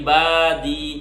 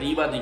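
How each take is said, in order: First: The first vowel starts deep in the throat. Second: The first vowel starts plainly. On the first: The speaker calls it right. "আইন গলার মধ্য থেকে" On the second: The speaker calls it wrong. "বাংলায় ... ইবাদি"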